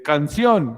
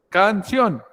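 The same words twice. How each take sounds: First: Said in the usual way. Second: "Canción" said emphatically as can-SIÓN; stress on last syllable. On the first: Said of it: "cuál es la sílaba tónica". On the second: Shown as a demonstration. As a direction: punch the final "ción" of "Canción". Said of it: "la sílaba tónica es donde está más fuerza".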